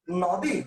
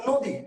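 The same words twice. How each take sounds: First: "নদী" as "nɔdi", open vowel drawn out; wrong open vowel. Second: "নদী" as "nodi", with a rounded o; natural closed o. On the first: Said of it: "আপনি উচ্চারণটা কি করেন". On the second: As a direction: say "নদী" with o in the first syllable. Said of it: "ওকার দিয়ে উচ্চারণ করেন". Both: Shown as a demonstration.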